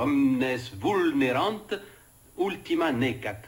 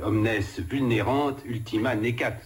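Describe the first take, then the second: First: The Latin is pronounced the restored classical way. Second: The Latin is pronounced the French way. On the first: This is the pronunciation people were later told to use. "on nous a dit qu'il fallait dire" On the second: This is how it was said in older French schooling. "prononçait ça de façon à la française"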